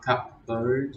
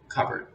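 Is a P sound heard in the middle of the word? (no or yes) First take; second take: yes; no. First: A P sound is heard in the middle. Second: No P sound is heard in the middle. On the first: The speaker calls it wrong. "It's not cupboard" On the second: The speaker calls it right. "the P. You don't hear it"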